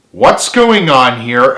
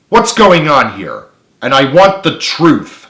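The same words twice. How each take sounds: First: Slow questioning stern voice rising on going. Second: Slow, loud stern demand; angry. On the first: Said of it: "asked Carly sternly". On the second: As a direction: press them angrily for the truth. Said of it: "she said angrily". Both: A narrator's reading.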